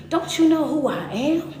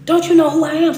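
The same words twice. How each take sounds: First: Said in the usual way. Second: Louder repeat. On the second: Acted. Repeated rhetorical question, louder.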